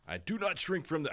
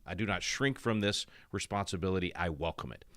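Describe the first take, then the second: First: Attempted Massachusetts accent, pitched much higher; a quick, half-hearted try at a Massachusetts accent; Kennedy Massachusetts accent. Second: Said in the usual way. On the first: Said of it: "do a Massachusetts accent". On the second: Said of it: "I can't do a, do a Massachusetts accent".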